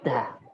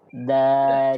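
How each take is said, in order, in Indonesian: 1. Konsonan dilepas dengan hembusan napas. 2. Konsonan dilepas dengan tegas tanpa hembusan napas. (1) "membaca dal dengan hamas seperti da. ... Ini kesalahan" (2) "Kita baca da"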